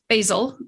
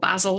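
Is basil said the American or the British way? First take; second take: American; British. First: Basil is said the American way. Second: Basil is said the British way.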